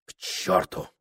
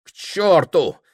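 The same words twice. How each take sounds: First: Softer, voiceless curse; whispered curse. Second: Higher, louder outburst; burst out. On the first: Prokhor muttering to himself, whispered. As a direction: hiss it under your breath. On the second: Prokhor cursing to himself, loud outburst. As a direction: fling the curse out aloud. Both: A narrator's reading. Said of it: "говорил он сам себе".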